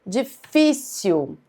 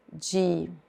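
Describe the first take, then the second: First: "Difícil" drawn out slowly with the FÍ syllable stressed; "Difícil" spelled out slowly, di-FÍ-cil; slow stressed demo. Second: Said in the usual way. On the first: Shown as a demonstration. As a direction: stretch "Difícil" and land hard on FÍ. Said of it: "Tem a penúltima sílaba mais forte".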